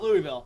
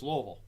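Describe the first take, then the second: First: The name is said with full, distinct vowels. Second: The name is said with vowels squeezed down. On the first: The speaker calls it wrong. "we can't call it Louisville" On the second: The speaker calls it right. "you have to pronounce it with as little, uh, a little vowels as possible"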